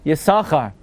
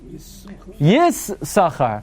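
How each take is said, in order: First: The s sound is pronounced only once. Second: The s sound is pronounced twice, split across syllables. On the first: It follows the reading that sounds one letter only. "Following Ben Asher would mean Yisachar" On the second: It follows the reading that sounds both letters. "The first sin has the Shva. The second sin has the Kamatz"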